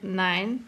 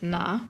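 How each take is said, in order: First: It is said in standard German form. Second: It is said in Viennese dialect form. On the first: "you don't say nine" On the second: "You say you say na"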